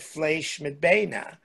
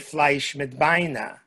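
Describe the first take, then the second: First: It is said in standard literary Yiddish. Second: It is said in a Warsaw Yiddish dialect. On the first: "that's the literary way of how it's spelled" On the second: "spoke with a true Varshavar Yiddish"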